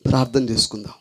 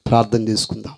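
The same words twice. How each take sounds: The two takes are said the same way.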